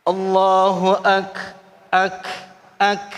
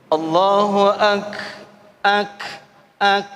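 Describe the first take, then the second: First: Slow "Allahu ak" with the k breaking out; bursting kaf. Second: Slow "Allahu ak" ending cleanly on k, no vowel after; clean kaf. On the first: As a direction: hit "ak" with a burst on the k. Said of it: "kaf ini pecah". ("ak" dengan kaf pecah) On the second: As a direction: stop crisply on "ak" without an e. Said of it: "bukan ake". ("ak" tanpa bunyi e) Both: Shown as a demonstration.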